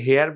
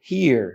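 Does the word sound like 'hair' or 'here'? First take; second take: hair; here. First: The vowel is an open 'eh' sound, like 'hair'. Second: The vowel is a close 'ee' sound, like 'here'. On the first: The speaker calls it wrong. "আমরা এটাকে হেয়ার বলি অনেক সময়" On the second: The speaker calls it right. "But এটার উচ্চারণ হবে হিয়ার"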